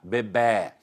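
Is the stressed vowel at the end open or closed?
open. The final stressed vowel is open. This is the form preferred in Portugal. "Lá em Portugal, existe a preferência da sílaba tônica aberta"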